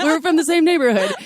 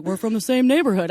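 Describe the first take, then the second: First: Put-on loud, high British gangster accent; Tom Hardy impression. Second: Lightly attempted British accent, unintentionally like Mister Rogers; mild British imitation. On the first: Correcting the co-host's version, loud hammed-up British accent. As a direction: redo it louder and higher in a put-on British accent. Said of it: "He sounded exactly like Tom Hardy". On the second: Retelling the British stranger's reply, mild accent imitation. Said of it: "sounds like Mister Rogers".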